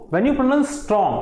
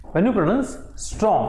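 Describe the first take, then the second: First: Said in the usual way. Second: Repeated a little slower for dictation; slow, careful repeat for the class. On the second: Shown as a demonstration. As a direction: say it again, a bit slower. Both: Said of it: "I repeat".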